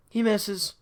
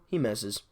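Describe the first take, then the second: First: "He misses." jumps much higher in exasperation; exasperated repeat. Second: Said in the usual way. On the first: Real, not acted. Ranting fan repeats the miss in exasperated disbelief. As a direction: hit "He" high, disbelieving.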